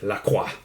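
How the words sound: The name is said with a French pronunciation. "I'm half French Canadian, so I have to say it"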